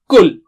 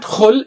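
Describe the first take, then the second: First: It starts with a light k sound. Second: It starts with a rough, scraping kh sound. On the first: "it is not kul" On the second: "It's not khul"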